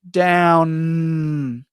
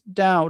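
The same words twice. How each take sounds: First: The final N sound is long and very strong. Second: The final N sound is weak or barely heard. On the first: "if you make the N really, really strong in practice" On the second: "it's not really correct"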